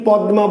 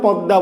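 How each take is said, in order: First: "পদ্মা" as pad-ma; spelling pronunciation. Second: "পদ্মা" as pad-da; everyday pronunciation. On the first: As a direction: keep d and m apart in "পদ্মা". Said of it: "তুমি কি পদ্মা বলছো". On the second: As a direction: drop m for a double d in "পদ্মা". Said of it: "না পদ্মা বলছো". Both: Shown as a demonstration.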